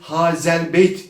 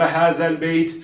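First: The z is a sharp hissing sound. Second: The z is a soft lisped sound. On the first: The speaker calls it wrong. "hazel beyt diye okuyamayız. Yani keskin z değil" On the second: The speaker calls it right. "peltek z harfidir"

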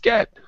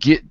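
First: The word has a standard 'eh' vowel. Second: The word has a southern 'ih' vowel. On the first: "It's get, to get" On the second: "They've got a southern drawl, which is a southern accent, a deep south accent"

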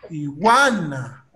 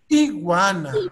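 First: The stress is on the second syllable. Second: The stress is on the first syllable. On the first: This is the Spanish pronunciation. "En español, la fuerza de voz está en gua" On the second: This is the English pronunciation. "Pero en inglés, la fuerza de voz está en la I"

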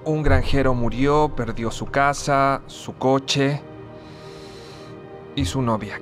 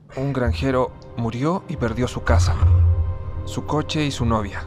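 First: It is said slowly. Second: It is said at normal speed.

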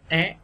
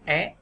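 No difference in how they are said.

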